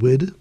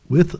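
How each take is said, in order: First: The word ends with a d sound. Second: The word ends with a th sound.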